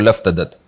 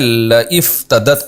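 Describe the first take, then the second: First: 'La' runs straight into 'f' with no 'i'. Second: An 'i' vowel is heard after 'la'. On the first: "फिर अलिफ साइलेंट हुआ तो लफ़्तदत" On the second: "पढ़ा जाता है लइफ़्तदत"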